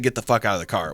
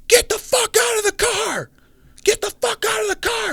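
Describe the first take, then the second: First: Said in the usual way. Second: Very high-pitched strained shout, volume held back; mock yell. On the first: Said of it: "but I know he said". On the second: Man with a pistol orders them out of the car, mock yelling. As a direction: imitate an armed stranger yelling orders. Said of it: "like, a yell, like, yelling".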